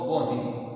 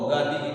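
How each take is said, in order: First: The first vowel is an 'o' sound. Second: The first vowel is an open 'aa' sound. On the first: This is the Charotari dialect pronunciation. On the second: This is the standard pronunciation.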